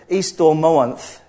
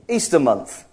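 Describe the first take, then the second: First: It is said as an attempt at Old English. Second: It is said with a very modern English accent. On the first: "I'm not quite sure how you pronounce it in Anglo-Saxon. It's sort of" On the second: "to say it in a very English accent"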